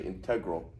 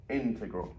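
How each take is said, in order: First: INTEGRAL stressed on TEG; stress on second syllable. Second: INTEGRAL with the weight on IN; first syllable of INTEGRAL emphasized; stress on first syllable. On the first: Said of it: "You don't say integral". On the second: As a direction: say INTEGRAL as IN-tegral. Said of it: "The emphasis is here". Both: Shown as a demonstration.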